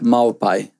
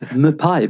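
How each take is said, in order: First: The name starts with an 'mau' sound. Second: The name starts with a plain 'moo' sound. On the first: The speaker calls it right. "Ja, precis" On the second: The speaker calls it wrong. "namnet brukar jag alltid uttala fel"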